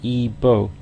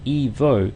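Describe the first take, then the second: First: The middle consonant sounds like a b. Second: The middle consonant sounds like an English v. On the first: The speaker calls it right. "it's more Ebo in Spanish" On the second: The speaker calls it wrong. "as you might say in English"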